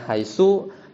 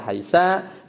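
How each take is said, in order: First: The word ends in an u vowel. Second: The word ends in an a vowel. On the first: "Haitsunya bisa bidhammi" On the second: "haitsa bil fathi"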